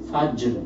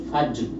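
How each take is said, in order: First: The word stops on a bare, heavy r. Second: The same.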